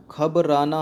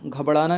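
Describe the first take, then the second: First: "घबराना" with plain r, ghabrānā; "घबराना" as ghab-rā-nā, no flap; correct pronunciation. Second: "घबराना" with flapped ṛ, ghabṛānā; "घबराना" mispronounced as ghab-ṛā-nā; wrong pronunciation. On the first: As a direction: say "घबराना" carefully, with a clear r after ghab. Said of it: "होता है". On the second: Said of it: "नहीं होता है". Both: Shown as a demonstration.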